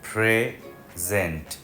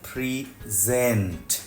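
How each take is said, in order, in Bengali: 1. জোর প্রথম সিলেবলে। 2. জোর দ্বিতীয় সিলেবলে। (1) "যেহেতু নাউন প্রথম সিলেবলের উপরে জোর পড়বে" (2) "যেহেতু ভার্ব তাই দ্বিতীয় সিলেবলের উপর জোর পড়বে"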